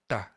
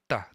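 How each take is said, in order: No difference in how they are said.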